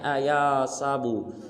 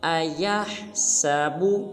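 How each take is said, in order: First: The h sound in the middle is dropped. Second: The h sound in the middle is pronounced. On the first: The speaker calls it wrong. "इस हर्फ को बाज़ मुसलमान पढ़ देते हैं अयासाबु, ये बिल्कुल गलत है" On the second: The speaker calls it right. "इसको ठीक अदा करने का तरीका यूँ है"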